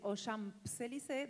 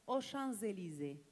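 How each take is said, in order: First: A p sound is heard in Champs. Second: No p sound is heard in Champs. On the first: The speaker calls it wrong. "En vez de decir" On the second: The speaker calls it right. "no pronuncias la P de Champs"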